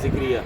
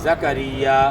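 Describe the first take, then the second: First: The name begins with 'zik' and has three syllables. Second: The name begins with 'za' and has four syllables. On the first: The speaker calls it wrong. "लोग क्या पढ़ते हैं" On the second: The speaker calls it right. "तो ये लफ्ज़ तो सही आना चाहिए"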